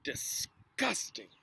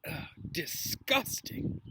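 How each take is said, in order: First: Disgusted. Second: Drawn-out, slow groan of disgust; a sip of vile potion, slow and breathy; hammed-up disgust. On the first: Acted. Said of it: "pulled a face". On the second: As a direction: pull a face and drag it out. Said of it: "he said".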